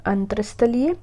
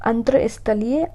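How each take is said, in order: Both takes have the same delivery.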